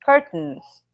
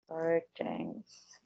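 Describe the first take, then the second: First: Louder "Curtains" copied from the recording; repeating after audio. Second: Soft tentative "Curtains", testing the word; trying out "Curtains" quietly before hearing it; unsure first try. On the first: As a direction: say "Curtains" firmly, echoing the model. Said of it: "E a gente escuta juntos". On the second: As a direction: murmur "Curtains" to yourself before checking it. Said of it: "mas deixa eu ter certeza". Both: Shown as a demonstration.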